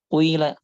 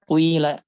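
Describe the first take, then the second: No difference in how they are said.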